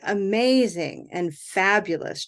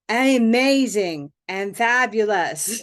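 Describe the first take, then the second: First: Only the main syllables are stressed; others are light. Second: Every syllable is stressed with equal weight. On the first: "We say amazing and fabulous" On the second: "Now they all sound stressed"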